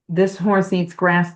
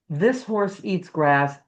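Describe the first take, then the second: First: It is said with a strongly nasal voice. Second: It is said with a clear, non-nasal voice.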